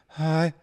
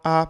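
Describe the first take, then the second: First: The vowel starts with a breathy h sound. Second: The vowel starts with a sharp glottal catch. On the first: "as opposed to" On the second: "she has that glottal onset"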